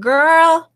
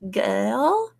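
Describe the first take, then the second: First: It is said in an American accent. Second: It is said in an Australian accent.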